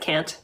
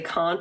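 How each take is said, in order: First: It is said in a general American accent. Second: It is said in a New England accent. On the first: "instead of" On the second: "We'll say can't"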